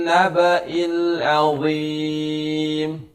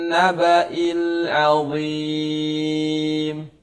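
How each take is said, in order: The two takes are said the same way.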